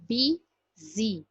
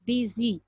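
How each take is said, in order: First: "B Z" as the two beats of busy, bi - zy, with a clear gap; teacher separating "B Z" into two distinct syllables; split into syllables. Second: Said in the usual way. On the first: Shown as a demonstration. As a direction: sound out busy slowly as "B Z", pausing between. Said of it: "two sounds are coming from our mouth". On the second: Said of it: "two syllables".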